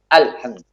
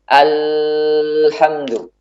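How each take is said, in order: First: The L sound is held back without flowing. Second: The L sound flows on for a long time. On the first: "Ini suaranya tertahan. Tidak mengalir" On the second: "Tidak juga dibuat mengalir yang panjang"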